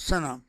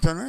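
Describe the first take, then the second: First: The word begins with an s sound. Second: The word begins with a th sound. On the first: The speaker calls it right. "we pronounce it in this way in Urdu, Sana" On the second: The speaker calls it wrong. "It's not Thana"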